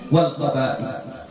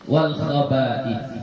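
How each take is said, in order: No difference in how they are said.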